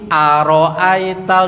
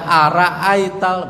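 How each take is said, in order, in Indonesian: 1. Setelah r ada vokal o yang bulat. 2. Setelah r ada vokal a yang terbuka. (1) "Masih aroaital" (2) "dibaca araaital begitu. Lidahnya orang seberang, ro-nya dibaca ra"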